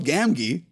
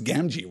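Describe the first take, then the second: First: The second G is a hard g sound. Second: The second G is a soft j sound. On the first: The speaker calls it wrong. "My audiobook pronounces the second G in Gamgee the same as the first" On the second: The speaker calls it right. "I'm at least pronouncing Samwise Gamgee right"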